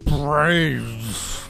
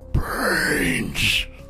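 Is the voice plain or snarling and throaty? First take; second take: plain; snarling, throaty. First: It is said in a plain voice. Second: It is said with a throaty snarl.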